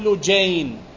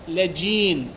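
First: The L and J take other vowels. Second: The L takes a and the J takes i. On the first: "مو لجين" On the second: "بفتح اللام وكسر الجيم"

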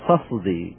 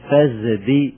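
First: The sound before the d is a clear s. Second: The sound before the d is a full z. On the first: "بيان يعني لا إبدال ولا مضارعة" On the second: "إبدال إلى زاي"

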